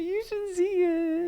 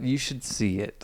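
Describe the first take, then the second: First: The tone sounds upbeat and enthusiastic. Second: The tone sounds reserved and doubtful. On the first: The speaker sincerely recommends the movie. The speaker calls it right. "That's good" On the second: The speaker may have mixed feelings about the movie. The speaker calls it wrong. "I feel like my tone is saying something"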